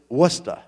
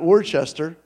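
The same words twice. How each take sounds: First: The name is said in a shortened local form. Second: The name is said the way it is spelled. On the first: The speaker calls it right. "it's Worcester" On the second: The speaker calls it wrong. "Spelled like you would say Worcester. ... It's not Worcester"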